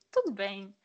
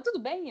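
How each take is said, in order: First: Said in the usual way. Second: Lightly voiced mom, rising sing-song tudo bem; a hint of mom fishing with a rising "Tudo bem?"; imitating mom's question. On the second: Daughter quoting mom's text, lightly voiced mom, rising.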